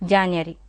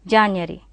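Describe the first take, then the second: No difference in how they are said.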